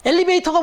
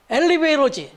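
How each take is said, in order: First: Said in the usual way. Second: 엘리베이터 said as "엘리베이러", with a flapped r for the t; mock English pronunciation. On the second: Mother correcting her child's word, 엘리베이터 pronounced "elibeiro". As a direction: soften the 터 in 엘리베이터 to an American-style "러". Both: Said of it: "이렇게 얘기를 해줬더라는 거예요".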